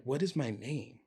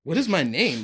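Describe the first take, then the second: First: Softer, asking yourself under your breath; hushed to yourself; inner panic, quiet. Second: Rising panic. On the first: Lost in his own head, asking himself his name softly. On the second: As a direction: let the panic break through on the repeat. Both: Retold or imitated. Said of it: "thinking in my head".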